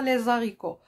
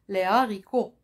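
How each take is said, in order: First: The s of les links to the next word. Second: The s of les stays silent, no linking. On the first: The speaker calls it wrong. "et non pas" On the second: The speaker calls it right. "Pas de liaison"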